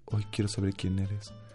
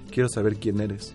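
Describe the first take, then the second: First: It is said in a put-on heartthrob voice. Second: It is said in his normal voice.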